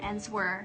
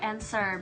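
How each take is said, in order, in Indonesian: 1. Kata itu diucapkan dengan bunyi W. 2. Kata itu diucapkan tanpa bunyi W. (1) "bukan answer" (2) "bacanya tuh answer"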